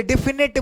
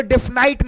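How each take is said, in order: First: "डेफिनेट" ending in short net; correct pronunciation. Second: "डेफिनाइट" ending in night; wrong pronunciation. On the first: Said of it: "डेफिनेट बोलते हैं". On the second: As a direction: misread it as "डेफिनाइट", eye vowel. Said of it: "डेफिनाइट नहीं बोलते". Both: Shown as a demonstration.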